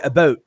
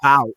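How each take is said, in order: First: It is said in a Canadian accent. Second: It is said in an American accent.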